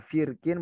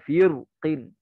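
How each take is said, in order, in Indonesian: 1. Huruf r dibaca tebal dan berat. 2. Huruf r dibaca tipis dan ringan. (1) "boleh dibaca tebal" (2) "boleh baca tipis"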